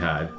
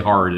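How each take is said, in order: First: It is said in a New England accent. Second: It is said in a general, non-local accent. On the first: The speaker calls it right. "It's pronounced wicked hard time" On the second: The speaker calls it wrong. "don't say hard"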